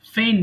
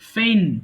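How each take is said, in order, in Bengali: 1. g এর শব্দটি পুরোপুরি বাদ দেওয়া হয়। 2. g এর শব্দটি পুরোপুরি বাদ দেওয়া হয়।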